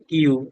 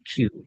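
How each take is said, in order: First: It starts with a plain, unaspirated k. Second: It starts with a breathy, aspirated k. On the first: The speaker calls it wrong. "এটা আমরা বলি কিউ" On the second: The speaker calls it right. "এটা হবে একটু ক্ষয়ের উচ্চারণ"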